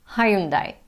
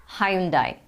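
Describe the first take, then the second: The two takes are said the same way.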